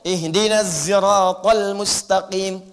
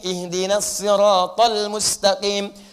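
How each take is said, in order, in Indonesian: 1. Siratal diawali dengan bunyi z. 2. Siratal diawali dengan bunyi s emfatik. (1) "nggak bisa sod, pakai zai" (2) "pakai sod"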